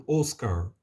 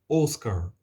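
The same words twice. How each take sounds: Both takes have the same delivery.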